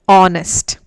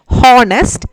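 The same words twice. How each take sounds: First: The word starts with a vowel, h silent. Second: The word starts with an audible h sound. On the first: The speaker calls it right. "H is silent. We have to pronounce it as honest" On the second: The speaker calls it wrong. "We don't say it as honest. That is wrong pronunciation"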